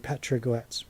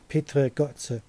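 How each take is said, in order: First: The name is said with English pronunciation. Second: The name is said with German pronunciation.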